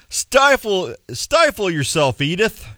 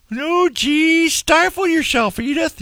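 First: Said in the usual way. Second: High, put-on Archie Bunker voice. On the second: Shown as a demonstration. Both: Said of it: "You don't even have to say it like that".

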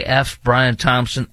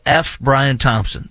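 First: F Brian Thompson, very slow, Brian leaned on; slow, deliberate stress. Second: F Brian Thompson, slow, each word spelled out; stress on F. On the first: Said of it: "That's all I want to say". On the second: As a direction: say F Brian Thompson slowly with the F hit hard. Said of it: "in case you couldn't hear it clearly, the full word". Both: Shown as a demonstration.

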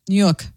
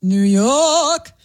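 First: Said in the usual way. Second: Drawn-out New York "Noo Yawk"; New York accent. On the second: Shown as a demonstration. Colleague performing for the host's test, broad New York accent. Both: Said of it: "Say, uh, New York".

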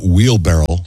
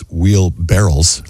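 First: Slow "wheelbarrow" ending in an O sound; correct word. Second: Slow "wheelbarrels" ending like barrels; misheard word. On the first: Host gives the real word, "wheelbarrow" ending in -row. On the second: Host shows one guy's mistake, "wheelbarrels" ending like barrels. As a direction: say "wheelbarrels" with -rels at the end. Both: Shown as a demonstration. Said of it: "One guy thought".

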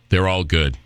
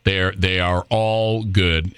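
First: Said in the usual way. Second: "all" leaned on, drawn out slowly; slow emphatic repeat. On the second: Real, not acted. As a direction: spell out "They're, they are all good" slowly, pressing on "all". Repeats phrase, slowing for emphasis.

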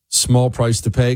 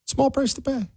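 First: Said in the usual way. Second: High, soft sing-song mockery; mocking echo. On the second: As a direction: throw the phrase back in a small, high voice. Mocking a played clip's phrase.

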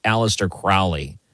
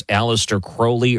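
First: Crowley said KROW-lee, as in "cow"; "ow" pronunciation. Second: Crowley said KROH-lee; long-O pronunciation. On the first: Host offering guest a second option, Crowley rhymed with "cow-lee". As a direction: make the first syllable of Crowley rhyme with "now". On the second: Host offering guest a first option, Crowley as KROH-lee. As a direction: make Crowley rhyme with "holy". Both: Shown as a demonstration. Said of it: "how's the correct way to pronounce".

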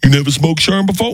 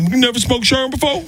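First: Lightly raised, teasing Tracy voice; a hint of Tracy, rising question; Tracy Morgan impression. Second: Much higher, rising, mocking Tracy voice; Tracy Morgan impression. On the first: Tracy teasing the young comic, lightly voiced. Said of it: "Tracy Morgan says". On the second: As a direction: push it way up like Tracy pushing the joke. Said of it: "And he said".

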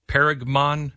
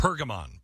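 First: "Pergamon" tried as PAIR-ug-mon, questioning; unsure pronunciation. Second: "Pergamon" as PUR-guh-mon, repeated softly; corrected pronunciation. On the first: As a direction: sound out "Pergamon" tentatively with an "air" first vowel. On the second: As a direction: softly echo "Pergamon" with "purr" as first syllable. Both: Real, not acted. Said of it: "How do you say it?".

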